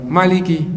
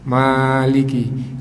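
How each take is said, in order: First: The vowel after the m is kept short. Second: The vowel after the m is held long. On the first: "kurang satu" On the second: "setelah mim itu ada alifnya sehingga panjang"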